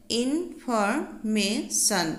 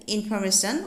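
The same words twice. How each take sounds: First: information slowly split into four syllables; teacher's slow syllable count on information. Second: Said in the usual way. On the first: Shown as a demonstration. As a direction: break information into in, for, may, shun with small gaps. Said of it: "চাৰিটা syllable আছে". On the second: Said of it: "ইয়াত চাৰিটা vowel sound আছে".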